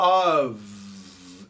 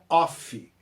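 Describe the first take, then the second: First: The word ends with a v sound. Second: The word ends with an f sound. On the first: The speaker calls it right. "A pronúncia é of, é som de V" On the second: The speaker calls it wrong. "não se pronuncia off, igual o brasileiro gosta de pronunciar"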